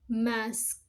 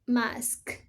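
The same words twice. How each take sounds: First: The word ends with k then s. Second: The word ends with s then k.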